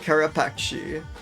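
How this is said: The word is given an Italian-sounding ending. The speaker calls it wrong. "I want to pronounce it, like, very Italian"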